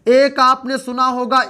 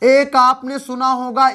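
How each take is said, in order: Both takes have the same delivery.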